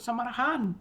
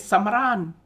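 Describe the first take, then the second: First: The h sound is pronounced in the word. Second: The h sound is dropped from the word. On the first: This is how others say it. "iban na nyebut" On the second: This is how Iban speakers say it. "We say"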